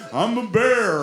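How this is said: It is read in a put-on animal character voice.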